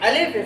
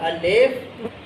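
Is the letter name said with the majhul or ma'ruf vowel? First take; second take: ma'ruf; majhul. First: It is said with the ma'ruf vowel. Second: It is said with the majhul vowel. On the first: "इसका मारूफ नाम है" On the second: "मजहूल"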